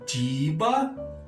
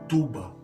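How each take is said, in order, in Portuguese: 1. A primeira vogal é um som de 'ee'. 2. A primeira vogal é um som de 'oo'. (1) "na forma I" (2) "na forma U"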